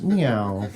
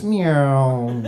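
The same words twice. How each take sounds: First: Low, drooping "meow"; short mournful imitated cat cry; sad cat meow. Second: Long "meow" sliding downward; drawn-out, descending mournful cat cry; falling sad cat meow. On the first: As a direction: mew it glumly, sinking in pitch. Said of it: "here's the sound of a sad cat". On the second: Retold or imitated. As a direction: stretch the meow out as the cat drops away. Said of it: "sound of a sad cat falling from a window".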